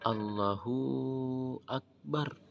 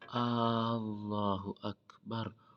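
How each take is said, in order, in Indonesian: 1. Vokal hu setelah h dipanjangkan panjang. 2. Vokal pembuka pada Allah dipanjangkan panjang. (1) "memanjangkan huruf haknya sehingga terdengar" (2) "jangan sampai kita memanjangkan alif daripada takbiratul ihram atau lafzul jalalah sehingga terdengar"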